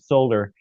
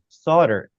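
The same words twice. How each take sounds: First: The word is said with an L sound. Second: The word is said without an L sound. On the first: This is a later changed pronunciation. "some British ponds decided they liked it better as pronouncing it solder" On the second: This is the original pronunciation. "it was originally pronounced solder"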